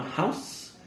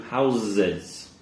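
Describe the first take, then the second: First: HOUSE ending in a hissed "s"; slow HOUSE with unvoiced final s; singular S sound. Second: HOUSES as "HOW-ziz"; plural Z sound. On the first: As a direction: model HOUSE as "howss". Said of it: "Hear that nice S sound". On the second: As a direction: buzz both s letters in HOUSES. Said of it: "changes to a Z". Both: Shown as a demonstration.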